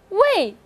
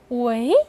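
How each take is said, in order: First: The pitch falls sharply from high to low. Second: The pitch rises from mid to high. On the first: "第四个是围" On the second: "第二个是围"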